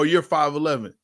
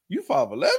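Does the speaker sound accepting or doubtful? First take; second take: accepting; doubtful. First: It is said as a plain, accepting statement. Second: It is said in a doubtful, questioning tone. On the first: The speaker believes the height claim. "let me give you a difference" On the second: The speaker doubts the height claim. "That's a questioning tone"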